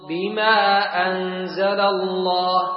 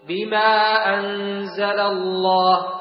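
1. الحركة قبل الهمزة تبقى قصيرة. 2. الحركة قبل الهمزة تبقى قصيرة.

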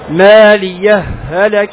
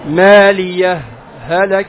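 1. تُدغم الهاءان معًا دون سكتة. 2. سكتة قصيرة تفصل بين الكلمتين. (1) "الإدغام" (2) "الإظهار وهو هذا السكت"

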